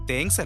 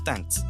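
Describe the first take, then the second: First: The vowel sounds like the 'e' in 'bed'. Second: The vowel sounds like an open 'a'. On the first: The speaker calls it wrong. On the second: The speaker calls it right.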